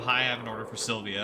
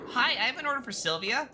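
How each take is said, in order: First: It is said in a lower, natural voice. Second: It is said in a raised, higher voice.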